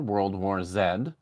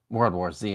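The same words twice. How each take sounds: First: Z is said the non-American way. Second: Z is said the American way.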